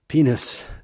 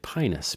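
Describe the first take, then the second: First: The first vowel sounds like 'ee'. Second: The first vowel sounds like 'eye'. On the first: The speaker calls it right. "the I in Latin, which is pronounced E" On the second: The speaker calls it wrong. "In America, we say pinus"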